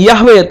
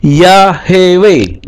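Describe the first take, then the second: First: Yahweh in two syllables, h straight into w; Yahweh run together as yah-weh; rejected reading. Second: Yahweh slowly as ya-he-weh; voiced sheva. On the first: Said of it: "bacanya bukan Yahweh". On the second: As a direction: say Yahweh in three drawn-out syllables, ya-he-weh. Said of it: "ketika dikasih seva". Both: Shown as a demonstration.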